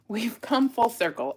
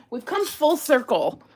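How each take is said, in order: First: Said in the usual way. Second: Higher and louder, laughing through the words. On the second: Real, not acted. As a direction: laugh at the irony. Laughing at finding bracelets.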